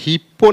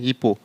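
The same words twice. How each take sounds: First: The middle p sound is doubled and held long. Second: The middle p sound is single and short. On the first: The speaker calls it wrong. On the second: The speaker calls it right.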